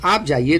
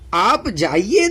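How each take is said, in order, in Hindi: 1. यह सादे, तटस्थ लहजे में कहा गया है। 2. यह ज़ोर देकर, चुनौतीपूर्ण लहजे में कहा गया है।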